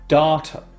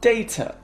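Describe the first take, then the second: First: It is said with an American accent. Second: It is said with a British accent.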